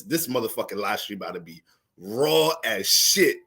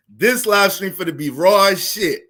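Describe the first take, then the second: First: Said in the usual way. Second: Louder, slow emphatic restatement; a slow, louder warning that the stream will be raw; emphatic repeat. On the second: Real, not acted. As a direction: lean hard on it and slow down.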